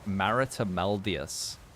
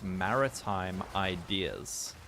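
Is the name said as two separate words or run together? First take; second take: run together; two words. First: The name is run together as one word. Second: The name is said as two separate words. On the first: The speaker calls it wrong. "I read his name as Maritameldius for like a month" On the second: The speaker calls it right. "dude, it's Maritime Ideas"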